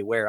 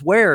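First: Said in the usual way. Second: Sharp, high, loud startled question; the tow guy spins round in surprise; startled where. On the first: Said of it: "I say". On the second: Retold or imitated. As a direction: tow driver whirling round, loudly startled. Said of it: "and he goes".

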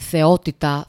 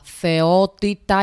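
First: Said in the usual way. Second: "θεότητα" stretched very slow, every syllable leaned on; a slow, awed "θεότητα" for a beloved professor; drawn-out emphasis. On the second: Real, not acted. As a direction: savour "θεότητα" slowly, in awe. Praising a favourite professor.

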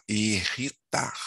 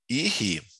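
First: "irritar" in three even syllables, "ir-ri-tar"; correct syllable split. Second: "irritar" broken as "irri", a long pause, then "tar"; wrong syllable split. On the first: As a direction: sound out "irritar" as "ir", "ri", "tar" without long breaks. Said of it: "Você fala irritar". ("irritar" silabado certo: "ir-ri-tar") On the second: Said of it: "Não, né? Você fala irritar". ("irritar" separado errado: "irri", pausa longa, "tar") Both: Shown as a demonstration.

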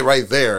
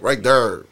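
First: Said in the usual way. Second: Baltimore accent. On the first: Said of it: "They don't say right there". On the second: Shown as a demonstration. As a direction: demonstrate the Baltimore accent on "there". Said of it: "It's like, right there".

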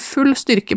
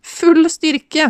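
First: Said in the usual way. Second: High, mock-echoing titter; giggly. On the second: A narrator's reading. Tipsy woman echoing his popcorn instructions, giggly. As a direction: echo it high, with a touch of giggle. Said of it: "fniste Ellen".

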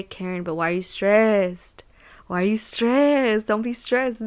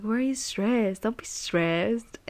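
First: Lightly voiced mentor, gently asking why she's stressed; a hint of the calm mentor's soothing question; imitating mentor. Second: Lightly voiced mentor, softer, the last words slowed way down; imitating mentor. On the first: Mentor soothing stressed Karen at work, mildly imitated. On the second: Mentor calming Karen again, soft and slow mock voice. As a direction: drag out don't be stressed like a mellow mentor. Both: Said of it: "That's literally how he talks".

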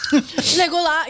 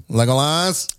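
First: Laughing nasal Legolas call; nasally Aragorn voice. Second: Lightly nasal Legolas call; a hint of Aragorn's nasal calling; nasally Aragorn voice. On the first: Retold or imitated. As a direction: repeat the nasal name through a laugh. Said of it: "nasally voice". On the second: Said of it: "Aragorn says something in the nasally voice".

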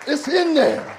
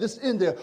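First: Higher, louder, punched out; preached catchphrase. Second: Said in the usual way. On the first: Acted. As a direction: ring it out as the sermon's hook.

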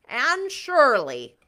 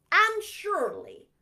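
First: Louder, slow scolding name; mock Marilla. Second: Louder, slow, higher call; sharp call. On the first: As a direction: call her name like stern Marilla. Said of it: "reader mocks Marilla". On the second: Acted. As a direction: call her name in alarm. Marilla calls.

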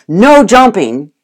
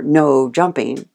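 First: Loud, slow no jumping; stern command. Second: Said in the usual way. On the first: Retold or imitated. Owner loudly commanding the dog to stop jumping. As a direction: mimic the owner's scolding command. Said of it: "if you go". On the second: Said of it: "the dog doesn't hear".

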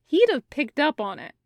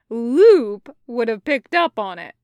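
First: Said in the usual way. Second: "Loop" hit loud and drawn up; stress on Loop. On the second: A narrator's reading. Taco correcting his own thought, stress on "Loop". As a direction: punch "Loop", then let the rest fall.

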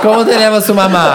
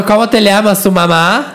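First: Put-on Spanish accent, higher, laughing through it. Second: Put-on Spanish accent, raised pitch. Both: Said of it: "ama seu sotaque espanhol".

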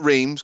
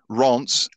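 First: Reims said as English "reemz"; wrong anglicised pronunciation. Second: Reims said as "ronts"; correct French pronunciation. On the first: Host correcting listeners, the wrong Reims as "reemz". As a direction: make Reims rhyme with dreams. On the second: Host correcting listeners, the right Reims as "ronts". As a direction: say Reims like "ronce", nasal vowel. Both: Shown as a demonstration. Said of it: "not Reims".

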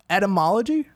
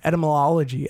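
First: "Etymology" as et-uh-MOL-uh-jee, questioning; tentative et-uh-MOL-ogy, pitched up; corrected pronunciation. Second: "etymology" garbled with an extra syllable, etymo-LOL-ogy; stumbled pronunciation. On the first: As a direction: try "Etymology" carefully, rising like a question. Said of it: "I think that's it". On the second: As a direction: trip over "etymology", doubling the "lol". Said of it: "I'm just gonna say it fifteen times". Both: Real, not acted.

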